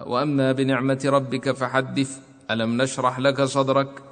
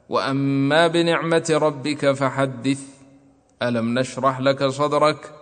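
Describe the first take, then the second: First: The two verses run together without any stop. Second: A brief silent stop without breath separates the verses. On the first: "الوصل مثل حمزة، كأن تقرأ" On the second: "والسكت أن تسكت على آخر السورة قبل الابتداء بأولها"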